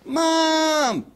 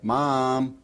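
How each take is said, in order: First: Squeaky high fawn-like Mom; high plaintive call for Mom; high bleating child call. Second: Said in the usual way. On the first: Shown as a demonstration. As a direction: call out like a lost little child. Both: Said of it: "Just think of a child".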